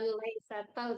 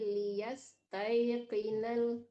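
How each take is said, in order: First: The word begins with the syllable lai. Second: The word begins with the syllables li-yas. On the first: The speaker calls it wrong. "Bukan laisatal" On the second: The speaker calls it right. "tapi liyas tayqinal"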